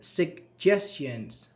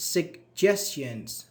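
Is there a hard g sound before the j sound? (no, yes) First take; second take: yes; yes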